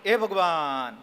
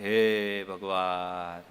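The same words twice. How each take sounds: First: It sounds astonished, like a sudden exclamation of surprise. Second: It sounds sorrowful, like a heavy sigh of grief. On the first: The speaker has just seen something unexpected. "એ આશ્ચર્યથી" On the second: The speaker has just heard sad news. "આ શોકથી"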